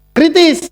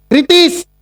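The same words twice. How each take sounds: The two takes are said the same way.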